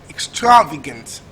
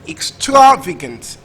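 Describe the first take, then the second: The two takes are said the same way.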